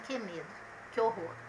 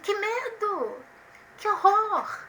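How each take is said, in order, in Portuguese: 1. É dito de forma neutra, sem sentimento forte. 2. É dito com sentimento forte e vivo. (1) "Se fosse com ponto final, eu falaria assim ... Sem sentimento" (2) "Ou então eu vou falar assim"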